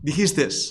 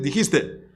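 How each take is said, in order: First: The word ends with an added s sound. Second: The word ends without any added s sound. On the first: The speaker calls it wrong. "se me escapa la ese final, dijiste, eso está mal" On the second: The speaker calls it right. "tengo que decir"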